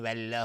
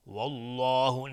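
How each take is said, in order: First: والله with a light, thin lām; والله clipped and light, without tafkhim; wrong thin Allah. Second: والله with a full, heavy lām, said slowly; والله drawn out with heavy tafkhim; correct heavy Allah. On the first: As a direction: say والله too thinly, the wrong way. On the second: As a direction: say والله with rounded lips, thick and full. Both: Shown as a demonstration.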